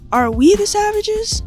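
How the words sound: It sounds musing, like Carrie Bradshaw narrating.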